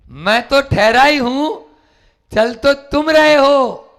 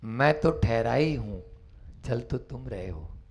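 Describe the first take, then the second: First: Higher, louder, slower restatement; preacher's emphatic repeat. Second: Low, soft and serene; calm monk's reply. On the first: Shown as a demonstration. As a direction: drive the point home. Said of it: "repeated louder". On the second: Acted. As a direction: answer with quiet composure. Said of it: "सामने से आवाज आती है".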